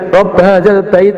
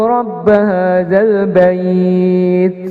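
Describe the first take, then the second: First: The final syllable is cut short. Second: The final syllable is held long. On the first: The speaker calls it wrong. "pendek seperti itu enggak" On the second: The speaker calls it right. "Jadi bait itu kita panjangkan"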